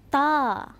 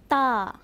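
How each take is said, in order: First: The letter name is said the Arabic way. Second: The letter name is said the Arabic way.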